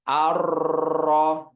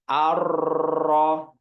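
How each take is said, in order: First: The r is trilled heavily and excessively. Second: The r is trilled heavily and excessively.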